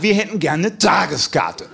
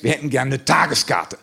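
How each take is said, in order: First: Langsam, mit Nachdruck auf wir; drück das wir, als Kampfansage; betont, herausfordernd wiederholt. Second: Said in the usual way. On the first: Retold or imitated. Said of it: "testosterontechnisch etwas herausgefordert". (langsam und trotzig betont)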